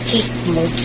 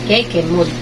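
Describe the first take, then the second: First: The first word sounds like kick. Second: The first word sounds like keh-keh. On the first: "Inartehan ko lang" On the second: "Keke siguro yun"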